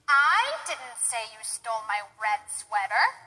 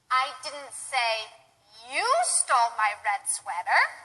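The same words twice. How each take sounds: First: The word "I" carries the stress. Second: The word "you" carries the stress. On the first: Someone else said it. "Maybe somebody else said that you stole the red sweater, and I didn't say it" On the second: Someone else stole it. "perhaps I said somebody else stole it, and I wasn't blaming you"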